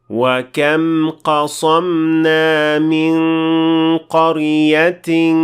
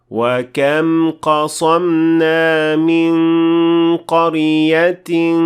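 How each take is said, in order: Both takes have the same delivery.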